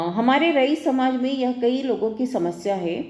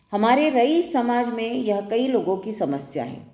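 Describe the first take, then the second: No difference in how they are said.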